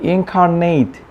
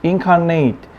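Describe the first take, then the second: Both takes have the same delivery.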